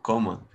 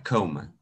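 First: Said in the usual way. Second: "Coma" with a lengthened English first vowel; longer English pronunciation. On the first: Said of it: "Así como coma". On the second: Shown as a demonstration. Teacher contrasts it with the Spanish word, longer English pronunciation. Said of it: "la pronunciación es un poquito más larga".

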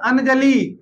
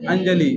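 First: "अंजलि" split as an-ja-lee, full n; wrong pronunciation. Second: "अंजलि" as un-ja-li, nasal joined to ja, lower; correct pronunciation. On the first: Teacher shows students faulty "अंजलि", split an-ja-lee. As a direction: sound a separate n in "अंजलि". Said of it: "गड़बड़ है". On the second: Teacher gives students corrected "अंजलि", nasal run into ja. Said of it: "तो यहाँ पर क्या आएगा उसका सही". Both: Shown as a demonstration.

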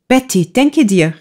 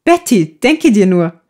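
First: Mild eager call, raised in pitch. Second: Beaming with joy. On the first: Eva grabs Betty by the shoulder with news, calling out mildly. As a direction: call to her with news to share. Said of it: "rief Eva und fasste sie bei der Schulter". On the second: Eva tells Betty her news, calling out joyfully. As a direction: burst out with happy news. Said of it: "rief Eva freudenstrahlend". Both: A narrator's reading.

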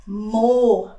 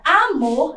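First: Amor split, short A, pause, long MOR; stress on final syllable. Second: Said in the usual way. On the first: Shown as a demonstration. Teacher shows the tonic syllable, Amor split with long MOR. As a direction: break Amor and draw out MOR. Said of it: "Sílaba tônica na última sílaba". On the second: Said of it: "é uma palavra oxítona".

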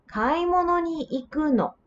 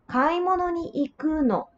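First: "Kaimono ni iku no?" asked with the pitch lifting at the end; "Kaimono ni iku no?" as a rising question; rising question tune. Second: "Kaimono ni iku no?" said as a statement, tone dropping at the end; "Kaimono ni iku no?" with a falling statement tune; falling answer tune. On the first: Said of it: "So the intonation will also change". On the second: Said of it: "you will drop the tone". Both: Shown as a demonstration.

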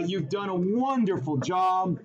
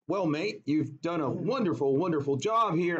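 First: Said in the usual way. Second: Put-on half-hearted English accent; badly faked English accent; failed English accent. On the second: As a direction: attempt an English boss and miss. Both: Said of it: "I can't do an English accent".

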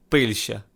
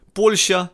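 First: Пильща with an и where the о of Польща belongs; wrong vowel. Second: Польща said slowly and louder, clear о in the first syllable; slow, emphatic Польща with a clear о; correct pronunciation. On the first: Teacher showing a wrong vowel, mock Пильща. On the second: Teacher stressing each letter, slow, emphatic Польща. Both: Shown as a demonstration. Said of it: "кожна буковка дуже важлива".

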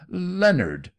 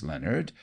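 First: A high, loud screamed name; shrill scream. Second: Pleading. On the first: Aunt screaming at her nephew in panic, high and loud. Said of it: "she screamed shrilly to her nephew". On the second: Aunt urging her nephew, pleading. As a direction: coax him gently by name. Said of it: "she pleaded". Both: A narrator's reading.

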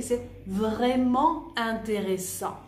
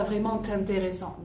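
First: Slow "vraiment intéressant", no t sound between the words; no liaison. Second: "vraiment intéressant" with an added t linking sound; wrong liaison. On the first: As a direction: keep "vraiment" and "intéressant" apart. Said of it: "Je dis pas vraiment intéressant". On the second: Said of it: "Je dis pas". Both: Shown as a demonstration.

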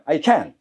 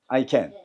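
First: "can" hit hard, final T dropped; strong negative can't. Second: "can" said low and unstressed; low positive can. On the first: Teacher asks how to say cannot, strong stressed can. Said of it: "할 수 없다는 세게 합니다". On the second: Teacher contrasts it with cannot, low unstressed can. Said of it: "낮게 하면 할 수 있다고". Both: Shown as a demonstration.

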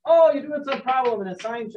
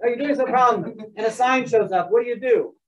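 First: Put-on accidental Canadian accent, pitched higher; lightly Canadian-accented mock teacher quote. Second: Said in the usual way. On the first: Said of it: "I'm speaking in Canadian accent". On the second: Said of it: "I don't know why I'm speaking".

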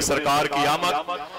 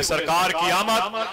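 First: Said in the usual way. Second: "सरकार की आमद" called out slowly and higher; say it louder. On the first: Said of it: "अपने हाथों को उठा के बोले". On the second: Shown as a demonstration. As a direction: lead the crowd, call it out. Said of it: "ऊंचे बोले". ("सरकार की आमद" ऊँची आवाज़ में)

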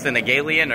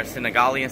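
First: "Senegalian" with a long "gay" syllable; first pronunciation option. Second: "Senegalian" with an open "gah" syllable; second pronunciation option. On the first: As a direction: say "Senegalian" as sin-uh-GAY-lee-un. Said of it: "I don't know if it's". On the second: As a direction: say "Senegalian" as sin-uh-GAH-lee-un. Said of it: "or Senegalian". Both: Shown as a demonstration.

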